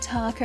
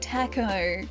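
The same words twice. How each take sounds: First: The first syllable does not sound like 'tack'. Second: The first syllable sounds like 'tack'. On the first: This is the proper way to say it. The speaker calls it right. "not taco" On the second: This is how the speaker's grandmother says it. The speaker calls it wrong. "like as in a, a, a tachometer, like a, a taco that you have in a car. Like she'd say taco"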